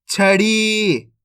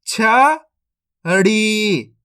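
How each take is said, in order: First: छड़ी joined as one word, final ee held; syllables blended. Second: छड़ी broken into छ, pause, long ड़ी; split into syllables. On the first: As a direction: blend छड़ी without a gap, long ending. (छड़ी को मिलाकर, ई खींचकर) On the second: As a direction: sound out छड़ी slowly in two separate parts. (छड़ी को तोड़कर, धीरे-धीरे) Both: Shown as a demonstration. Teacher sounds out, then blends.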